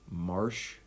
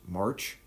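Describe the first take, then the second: First: The name ends with a soft sh sound. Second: The name ends with a hard ch sound. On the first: "with like kind of like a soft S in there" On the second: "like the month"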